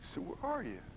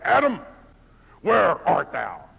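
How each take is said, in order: First: It is said in a sad, heartbroken tone. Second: It is said in an angry, stern tone.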